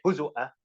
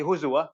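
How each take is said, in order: First: "هُزُوًا" with a glottal stop, huzu'a; "هُزُوًا" as huzu'a, no w glide; Shu'bah reading. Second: "هُزُوًا" with a w glide, huzuwa; "هُزُوًا" as huzuwa, no glottal stop; Hafs reading. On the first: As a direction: recite "هُزُوًا" with hamza before the last vowel. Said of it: "For Shu'bah, he had to say". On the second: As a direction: recite "هُزُوًا" with waw before the last vowel. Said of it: "when he was teaching Hafs, he was saying". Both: Shown as a demonstration.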